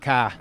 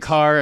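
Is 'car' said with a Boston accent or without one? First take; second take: with; without. First: The word is said with a Boston accent. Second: The word is said without a Boston accent. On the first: "and not car" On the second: "We kind of lose that accent. Say car"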